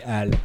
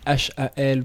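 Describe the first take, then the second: First: The name is said as a single word. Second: The name is spelled out as separate letters. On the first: This is how the speaker says it. "Je dis HAL" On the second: This is how the other person says it. "toi tu dis H-A-L"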